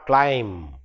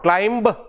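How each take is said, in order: First: The word ends on the M sound. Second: The final B is pronounced after the M. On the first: The speaker calls it right. "but climb. M sound, last one" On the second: The speaker calls it wrong. "it is not climb"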